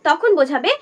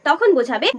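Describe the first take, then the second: No difference in how they are said.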